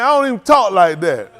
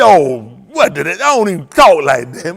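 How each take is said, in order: First: Hayward's line in a lightly voiced retelling; just a hint of Hayward in the voice; a light touch of imitation, barely changed; quoting Hayward. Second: Lower, louder mock of a deacon who cut his tongue; hammed-up deacon voice, pitched down and pushed louder. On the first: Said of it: "Hayward done sat here, man". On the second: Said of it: "that deacon went to cut his tongue".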